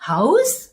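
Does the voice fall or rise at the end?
rise. The voice rises at the end. The speaker calls it wrong. "하고 올리면 안 돼요"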